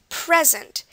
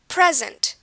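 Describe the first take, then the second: First: The stress is on the first syllable. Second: The stress is on the first syllable.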